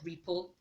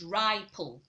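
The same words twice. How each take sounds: First: The first vowel is a short i sound. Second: The first vowel is a long i sound. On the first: This is how the word spelled with double P sounds. "That is not ripple" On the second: This is how the spelling with one P would sound. "the letter I will no longer maintain its short sound, it will rather change to sound to give off its long sound"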